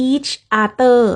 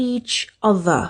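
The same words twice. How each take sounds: First: "each other" with each syllable clear; careful each other. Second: "each other" said run together; my old each other. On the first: (ออกเสียง each other แยกชัดทีละคำ) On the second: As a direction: slur "each other" into one word. (ออกเสียง each other แบบเดิมของหนู) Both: Shown as a demonstration. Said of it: "หนูออกเสียงว่า".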